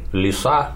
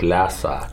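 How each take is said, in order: First: The first vowel sounds like ee. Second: The first vowel sounds like ya. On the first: This is how some speakers say it. "одни говорят «лиса»" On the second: This is how other speakers say it. "другие говорят «ляса»"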